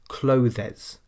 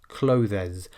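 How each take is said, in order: First: The word is said with two syllables. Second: The word is said with two syllables.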